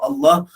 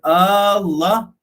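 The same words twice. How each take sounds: First: The first vowel is kept short. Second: The first vowel is drawn out long. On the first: The speaker calls it right. "sebut betul-betul" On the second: The speaker calls it wrong. "dipanjangkan hamzah pada perkataan Allah"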